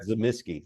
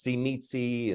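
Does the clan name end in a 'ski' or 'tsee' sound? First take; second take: ski; tsee. First: The name ends with a 'ski' sound. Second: The name ends with a 'tsee' sound. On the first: This follows the historical noble house's pronunciation. "That's how they pronounced it" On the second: This follows the game publisher's pronunciation.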